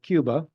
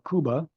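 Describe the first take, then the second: First: It is pronounced the way English speakers say it. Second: It is pronounced the way Spanish speakers say it.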